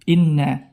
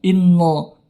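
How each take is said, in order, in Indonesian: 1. Huruf n-nya tipis, dengan vokal a yang jelas. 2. Huruf n-nya tebal, menghasilkan vokal mirip o yang gelap. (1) "tapi inna" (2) "jangan sampai nun di sini menjadi tebal"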